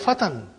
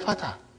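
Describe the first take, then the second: First: The word ends with an n sound. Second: The word ends on an open vowel. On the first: This is the full written indefinite form. "It is actually fatan" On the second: This is the form used in actual speech. "We say fata"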